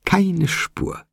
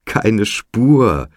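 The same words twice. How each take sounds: First: Very high delighted squeal without shouting; sky-high, elated repeat at ordinary volume; ecstatic squeal. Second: Loud, higher-pitched shout of delight; elated, full-voiced exclamation; ecstatic cry. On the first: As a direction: squeak it out, beside yourself with glee. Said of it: "außer sich vor Entzücken". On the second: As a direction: cry out, beside yourself with glee. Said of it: "schrie Mac, außer sich vor Entzücken". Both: A narrator's reading.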